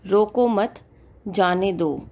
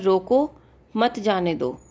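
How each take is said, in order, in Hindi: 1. विराम 'mat' के बाद है। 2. विराम 'roko' के बाद है। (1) "रोको मत के बाद लगा हुआ है, तो हम यहाँ पे दो एक सेकंड के लिए रुके" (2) "यहाँ पर मीनिंग बिल्कुल डिफरेंट है"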